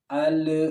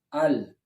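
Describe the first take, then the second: First: The l is released with a bounce. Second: The l is held without a bounce. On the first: "Tapi ketika kita menariknya, ... itulah ada pantulan" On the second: "Ketika lidah kita menempel di makhraj lam, ... belum ada pantulan"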